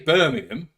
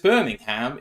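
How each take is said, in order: First: It is said the English way. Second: It is said the American Alabama way. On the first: "like the English do" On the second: "if you're in fucking Alabama"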